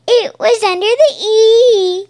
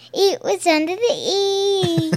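First: High, loud sing-out cartoon voice; imitating cartoon pony. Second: Put-on Accent Girl. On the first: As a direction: belt it out high like an excited pony. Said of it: "she hops and she's like". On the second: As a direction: repeat the catchphrase in a mock British accent. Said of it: "Only the time I said".

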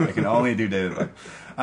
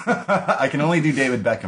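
First: A light, lightly voiced British footballer; David Beckham impression. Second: Said in the usual way. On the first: Podcaster showing his only impression, a light British footballer voice.

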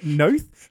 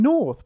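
First: "Noth" said with no r, questioning rise; "Noth" with a long o and no r sound; dropped r. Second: "North" with the r sounded, falling; "North" said plainly, r clearly pronounced; northern accent North. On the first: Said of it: "He's not saying Noth". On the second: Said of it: "he's saying it in a northern accent". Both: Shown as a demonstration.

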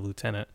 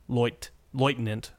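First: Said in the usual way. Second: "Lieutenant" said the German way, starting "LOYT"; hesitant German rendering of "Lieutenant", first syllable "loyt"; German pronunciation. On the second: Shown as a demonstration. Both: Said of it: "the German's version of lieutenant".

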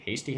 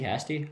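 First: Hasty said as HAY-stee; alternative pronunciation. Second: Hasty said as HASS-tee; preferred pronunciation. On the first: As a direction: try Hasty with a long A. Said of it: "Maybe it is Hasty". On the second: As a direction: try Hasty with a short A, as in hat. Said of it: "I think it's Hasty". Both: Shown as a demonstration.

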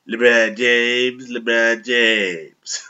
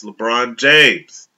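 First: Slow, drawn-out nasal LeBron James. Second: Said in the usual way. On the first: Shown as a demonstration. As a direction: stretch the name out through the nose. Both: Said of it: "I can do it really good because I'm kinda nasally".

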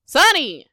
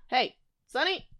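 First: Louder, higher call, falling at the end; raised-voice reprimand to a pet; sharp pet call. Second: Softer first call, rising at the end; soft questioning call; calling a pet. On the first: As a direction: scold the pet by name. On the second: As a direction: call the pet over gently, away from the mic. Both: Real, not acted.

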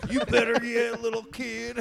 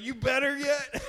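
First: Put-on high, loud country-accent dad; hammed-up country accent, teasing the kid; mock country accent dad checking on the kid. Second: Put-on high, twangy country-accent dad; mock country accent dad. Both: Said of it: "giving your dad a country accent".

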